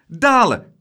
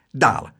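First: High, loud, eager cry; excited, ringing call. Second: Said in the usual way. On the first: A narrator's reading. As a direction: shout your vote for adventure. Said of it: "riep Laura". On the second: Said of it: "zei juffrouw Klaterhoen".

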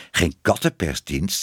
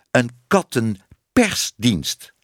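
First: Said in the usual way. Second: "kattenpersdienst" slow, broken into its parts; emphatic correction. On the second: Acted. Man correcting her word, "kattenpersdienst" slow and emphatic. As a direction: spell out "kattenpersdienst" piece by piece.

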